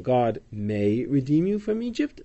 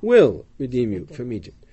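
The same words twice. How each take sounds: First: "may" questioned with a rising tune; doubting question. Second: "will" hit firmly and louder, falling; stress on WILL. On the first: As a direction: ask "God may redeem you from Egypt?" as a doubtful wrong reading, ending on a rise. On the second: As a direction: punch "will" as the correct reading. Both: Shown as a demonstration. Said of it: "No, God".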